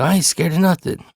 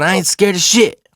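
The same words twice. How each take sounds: First: High-pitched denial at normal volume; retold protest losing its force; defiant without yelling. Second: High, loud denial; indignant acted retort; retold defiant yell. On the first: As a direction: keep denying it, but stop yelling. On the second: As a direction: insist it louder, pitched way up. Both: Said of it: "I'm not yelling anymore".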